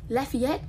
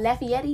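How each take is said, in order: First: Lafayette as "leh-fee-et", rising like a question; Lafayette, checking the proper Louisiana way; corrected pronunciation. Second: Lafayette said as "la-fee-et" with the a dropped; Lafayette, the mangled way they always say it; wrong pronunciation. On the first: Correcting the city name "Lafayette" with a questioning rise. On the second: Asked about Louisiana, "Lafayette" mispronounced. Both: Shown as a demonstration. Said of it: "I always say that wrong".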